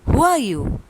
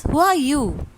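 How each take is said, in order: First: Echoed yell. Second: Called out a bit louder and higher; light yell. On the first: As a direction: answer like the mountain's echo. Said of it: "He receives the answer". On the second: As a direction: call out into the mountains. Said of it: "he yells". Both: A narrator's reading.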